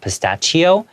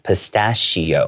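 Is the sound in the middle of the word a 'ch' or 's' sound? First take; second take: ch sound; s sound. First: The middle consonant is said as a ch sound. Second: The middle consonant is said as an s sound. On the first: The speaker calls it wrong. "even though it has the C H, it's not pistachio" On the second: The speaker calls it right. "it's more of an S sound"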